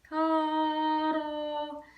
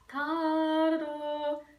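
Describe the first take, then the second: The two takes are said the same way.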